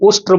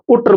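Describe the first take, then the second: First: An 'sh' sound comes before the 'tr'. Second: The 'sh' sound is dropped before the 'tr'. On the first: The speaker calls it right. "उष्ट्र बोलना नहीं आ रहा" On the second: The speaker calls it wrong. "उट्र बोल रहा है"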